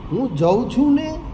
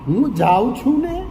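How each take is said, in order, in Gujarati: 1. ક્રિયાપદનો સ્વર ઘટીને હ્રસ્વ 'a' થાય છે. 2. ક્રિયાપદ પૂર્ણ દીર્ઘ 'aa' સ્વર જાળવે છે.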